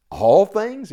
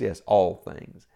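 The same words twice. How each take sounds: First: "All things?" pitched high and loud; raised, emphatic questioning on "All things"; incredulous question. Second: "all things" slow and settled, falling at the end; lower, measured "Yes, all things"; firm affirmation. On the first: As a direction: challenge "All things?" as if hard to believe. Preacher voices a doubting question. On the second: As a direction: answer firmly, stretching out "all things". Answers own question firmly. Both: Acted.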